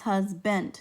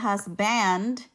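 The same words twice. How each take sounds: First: The second syllable has a reduced 'uh' vowel. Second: The second syllable has a full 'ah' vowel. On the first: The speaker calls it right. "is husband" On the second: The speaker calls it wrong. "instead of husband"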